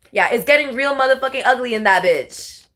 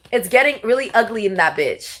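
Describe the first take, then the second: First: Lands the line with full weight; more emphatic take. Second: Said in the usual way. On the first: Shown as a demonstration. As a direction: stress on motherfucking, said with relish. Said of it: "Yeah, there it is". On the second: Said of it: "Wait, no".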